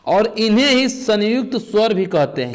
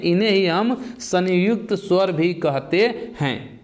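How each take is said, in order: First: Said in the usual way. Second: Slow, every word of इन्हें ही हम संयुक्त स्वर भी कहते हैं spelled out; teacher repeats the term slowly so students note it down; slow emphatic repeat. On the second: Shown as a demonstration. Teacher to class, slow deliberate repetition of इन्हें ही हम संयुक्त स्वर. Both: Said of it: "क्या कहते हैं?".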